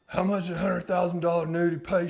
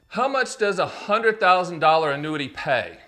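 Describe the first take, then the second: First: It is asked in a put-on character voice. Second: It is asked in the speaker's ordinary voice. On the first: A client is asking the question. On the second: The speaker asks the question himself.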